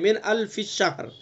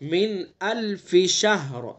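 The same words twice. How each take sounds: First: The f sound merges into a doubled sh. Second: The f and sh sounds are kept separate. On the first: The speaker calls it wrong. "यानी फा को शीन में मिला देते हैं, शीन को मुशद्दद कर देते हैं" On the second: The speaker calls it right. "बल्कि इसको अलग अलग पढ़ना है"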